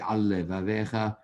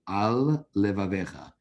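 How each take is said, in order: First: The two L sounds merge into one. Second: The two L sounds are said separately. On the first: The speaker calls it wrong. "you can't say al levavecha. You swallowed up a lamed" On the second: The speaker calls it right. "which is what you have to say"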